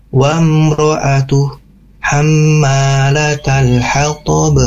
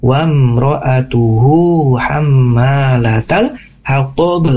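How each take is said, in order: First: Slow recital, "mro'atuh" closed on h, pause, then "hammalatal hatab"; stopping after ATUH. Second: Slow "mro'atuhu" flowing on into "hammalatal" without a stop; joined recitation. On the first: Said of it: "Boleh berhenti?". (berhenti di "mro'atuh", lalu lanjut "hammalatal") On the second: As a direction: link the long hu straight to "hammalatal". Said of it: "Jadi kalau disambungkan". ("mro'atuhu" disambung pelan ke "hammalatal") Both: Shown as a demonstration.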